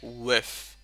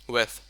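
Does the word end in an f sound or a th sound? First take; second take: f sound; th sound. First: The word ends with an f sound. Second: The word ends with a th sound. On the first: The speaker calls it wrong. "you kind of said like with, with W I F" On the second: The speaker calls it right. "we call it with"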